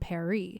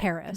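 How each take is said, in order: First: Paris is said with a French accent. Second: Paris is said with an American accent. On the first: It follows the official title's intended pronunciation. "supposed to be pronounced with a French accent" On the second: It is how Americans naturally say it. "we're from America. Like, we're going to say"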